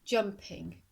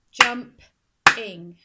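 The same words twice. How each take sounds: First: Said in the usual way. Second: "Jump-ing" in two slow, loud beats; clapped-out syllables. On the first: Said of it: "clap syllables in this word". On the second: Shown as a demonstration. Teacher clapping syllables in this word, "Jump-ing" beat by beat. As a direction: break "Jump-ing" in two, punching each part. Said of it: "I'm going to clap syllables".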